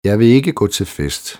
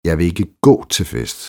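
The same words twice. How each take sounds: First: No word is singled out for stress. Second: The stress falls on the word gå. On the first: It is a neutral statement of fact. "Neutralt konstaterende" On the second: The speaker won't walk but could go another way. "Men vi kan jo cykle derhen"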